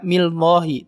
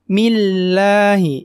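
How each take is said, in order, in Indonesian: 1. Bunyi L-nya tebal dan berat. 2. Bunyi L-nya tipis dan ringan. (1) "tidak millahi, tidak" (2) "Ingat tipis lamnya ya"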